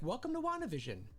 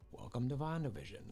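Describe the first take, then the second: First: It is said in a cheerful voice. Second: It is said in a sad voice.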